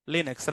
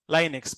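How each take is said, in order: First: Linux with short i, LIN-ux; Linux pronounced LIN-ux. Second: Linux with long i, LIE-nux; Linux pronounced LIE-nux. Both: Shown as a demonstration. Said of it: "Is that Linux or Linux?".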